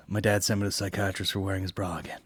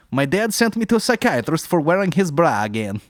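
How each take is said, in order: First: Said in the usual way. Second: High, loud mock Russian accent. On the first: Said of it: "I don't mind that one". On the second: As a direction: play a Russian joke teller. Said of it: "a Russian accent".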